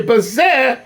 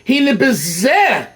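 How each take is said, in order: First: Bezeh alone, weighted, falling; stress on bezeh. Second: Slow, weight on bezeh; stress on bezeh. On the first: Teacher isolating bezeh for the class. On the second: Teacher reading the text, stressing bezeh. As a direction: draw out hine bezeh. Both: Shown as a demonstration. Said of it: "You have to emphasize the word here".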